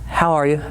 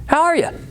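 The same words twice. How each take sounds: First: The greeting sounds flat and indifferent. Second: The greeting sounds warm, lively and caring. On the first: The question is just a nicety. The speaker calls it wrong. "Not how are you?" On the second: The speaker genuinely cares how the listener is. The speaker calls it right. "you need to have the inflection"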